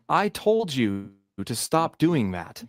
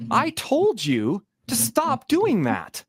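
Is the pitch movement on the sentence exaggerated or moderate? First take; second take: moderate; exaggerated. First: The pitch moves only a little across the sentence. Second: The pitch jumps very high on "told". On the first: "That's a perfectly reasonable way to say it" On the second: "you could exaggerate that more"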